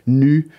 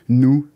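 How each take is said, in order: First: It is said with the French rounded front 'u'. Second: It is said with an 'oo' vowel, like French 'nous'. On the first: Being bare and transparent. "ça peut se prononcer de trois manières" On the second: Working together in collaboration. "ça peut se prononcer de trois manières"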